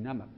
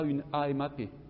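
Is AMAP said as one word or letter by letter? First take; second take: one word; letter by letter. First: It is pronounced as a single word. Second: Each letter is named separately. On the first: It is treated as an acronym. The speaker calls it right. "je dis" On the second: It is treated as an initialism. The speaker calls it wrong. "Je dis pas"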